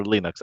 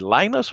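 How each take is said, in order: First: First syllable of "Linux" rhymes with "pin"; Linux with short I. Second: First syllable of "Linus" rhymes with "line"; Linux with long I. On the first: Asking which pronunciation is right, "Linux" as LIN-ucks. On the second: Asking which pronunciation is right, "Linus" as LIE-nucks. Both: Shown as a demonstration. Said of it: "is it Linus or Linux?".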